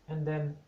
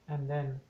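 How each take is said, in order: Both takes have the same delivery.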